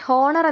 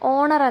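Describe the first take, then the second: First: The word begins with an h sound. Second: The word begins with a vowel sound. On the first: The speaker calls it wrong. "ഇവിടെ ഹോണർ എന്ന് വായിക്കരുത്" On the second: The speaker calls it right. "ഓണർ എന്നാണ് കേട്ടോ ഉച്ചാരണം വരുന്നത്"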